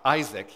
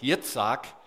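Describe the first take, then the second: First: The name is said in an English form. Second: The name is said in a Hebrew form. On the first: The speaker calls it wrong. "instead of anglicizing it" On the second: The speaker calls it right. "as a Hebrew would"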